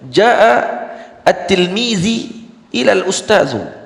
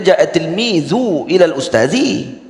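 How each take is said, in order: First: The word for student ends with an i vowel. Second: The word for student ends with a u vowel. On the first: The student is lowered and the teacher raised. The speaker calls it wrong. "kaedah salah" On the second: The sentence follows the grammar rules. The speaker calls it right.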